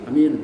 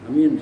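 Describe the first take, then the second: No difference in how they are said.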